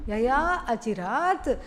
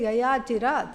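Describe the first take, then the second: First: A long 'a' vowel comes before 'chirat'. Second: There is no long vowel before 'chirat'. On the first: The speaker calls it right. "long A" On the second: The speaker calls it wrong. "Don't say Yaya Chirat"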